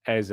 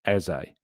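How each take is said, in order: First: Eze said as "EH-zeh"; name pronunciation. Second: Eze said "EH-zay", slow; name pronunciation. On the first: Name Eze as its owner says it, "EH-zeh". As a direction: say Eze with an open final e. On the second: Chat asks about Eze, he says "EH-zay". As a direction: say Eze with a long "ay" ending. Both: Shown as a demonstration. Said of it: "will say Eze".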